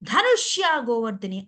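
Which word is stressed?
ధనుష్య. The stress is on the first name. The speaker calls it wrong. "అనకుండా"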